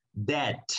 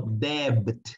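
First: DEBT said like "det", no B; debt with silent B. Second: DEBT wrongly said with the B pronounced; debt with B sounded. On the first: Teacher correcting the mistake for students, DEBT with silent B. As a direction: drop the B in DEBT, ending on a crisp T. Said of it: "más no debt, no, debt". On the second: Teacher showing students the mistake, DEBT with a sounded B. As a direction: make the silent B in DEBT audible. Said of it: "más no debt". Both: Shown as a demonstration.

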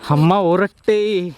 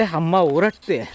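First: Put-on slow baby talk. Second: Put-on toddler's words. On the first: Shown as a demonstration. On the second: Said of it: "तर विहा म्हणते".

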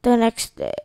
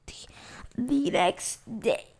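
First: Said in the usual way. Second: Whispering. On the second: Shown as a demonstration. Rereads it whispered.

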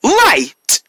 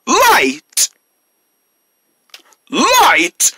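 First: Put-on drawn-out call for kids to repeat; kindergarten teacher voice. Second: Put-on higher, bigger call for kids; kindergarten teacher voice. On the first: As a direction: call it out for the class. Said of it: "repeat after me". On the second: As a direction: call it out again, brighter. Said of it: "Say it again". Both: Shown as a demonstration.

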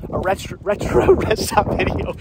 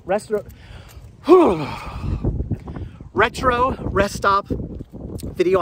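First: Laughing at own mumbling; laughing through frozen lips. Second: Mumbling with cold lips; frozen mouth. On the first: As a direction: chuckle with numb cold mouth. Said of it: "My mouth is frozen right now". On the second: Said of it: "I'm mumbling right now, it's so cold". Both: Real, not acted.

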